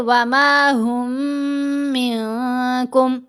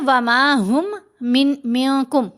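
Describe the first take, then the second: First: The two m sounds merge into one nasalized m. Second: The two m sounds are pronounced separately. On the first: The speaker calls it right. "इन दोनों को मिलाना है, मुदगम करना है" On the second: The speaker calls it wrong. "इनको अलहदा अलहदा आपने कर दिया"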